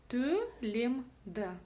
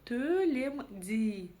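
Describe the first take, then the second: First: The final vowel is short, between hard and soft. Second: The final vowel is a soft, front vowel. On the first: The speaker calls it right. "палочка с точкой дает нам удобство чтения" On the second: The speaker calls it wrong. "буква «и» будет звучать очень мягко"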